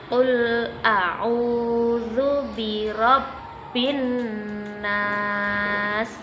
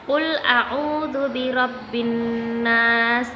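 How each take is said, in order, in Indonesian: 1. Dibaca dengan pelan dan hati-hati. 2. Dibaca dengan tempo paling cepat. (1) "metode membaca Al-Quran dengan pelan-pelan" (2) "Cara membacanya paling cepat ya"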